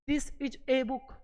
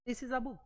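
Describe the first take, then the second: First: Each word is said separately with a full 'a'. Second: The words are linked smoothly with a reduced 'a'. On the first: The speaker calls it wrong. "अलग अलग पढ़ते हैं।" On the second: The speaker calls it right. "तो इसको ऐसे बोलो"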